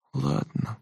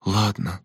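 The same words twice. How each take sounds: First: Soft, high, resigned sigh. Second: Understated, disappointed assent. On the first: Bertie gives up the adventure, sighing. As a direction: give in softly with a sigh. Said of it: "вздохнул Берти". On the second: Bertie accepts his friend's plan, mildly disappointed. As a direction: give in with a touch of disappointment. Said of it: "Берти разочарованно кивнул". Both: A narrator's reading.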